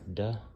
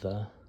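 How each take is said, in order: First: It is a hard d sound. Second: It is a soft voiced th sound. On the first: "it's just like the letter D in English" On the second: "some people pronounce it more like a the, like the letter val"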